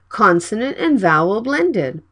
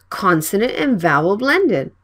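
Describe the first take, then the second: Both takes have the same delivery.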